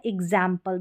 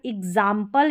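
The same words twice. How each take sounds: First: एग्जाम्पल with the vowel of "cat"; "ae" variant. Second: एग्जाम्पल with an open "aa"; "aa" variant. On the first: Teacher giving both accepted ways, "ae" in एग्जाम्पल. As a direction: say एग्जाम्पल as "ig-zaem-pal". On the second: Teacher giving both accepted ways, "aa" in एग्जाम्पल. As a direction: say एग्जाम्पल as "ig-zaam-pal". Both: Shown as a demonstration. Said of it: "दोनों तरीके से हम pronounce".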